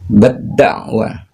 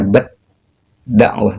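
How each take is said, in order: First: The t merges straight into the d sound. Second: A separate t is pronounced before the d. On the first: The speaker calls it right. "Cara membacanya bad-da'wah" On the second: The speaker calls it wrong. "bukan dibaca bad dakwah"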